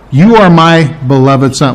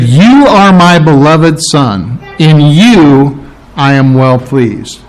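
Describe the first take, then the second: First: Said in the usual way. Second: Slow, weighty quoting of the Father's words; slow solemn quote. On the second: Shown as a demonstration. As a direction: lay each word down slowly and gravely. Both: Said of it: "I'm gonna get it wrong if I quote it".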